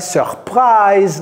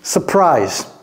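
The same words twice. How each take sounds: First: It is pronounced the French way. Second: It is pronounced the English way. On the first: The speaker calls it wrong. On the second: The speaker calls it right.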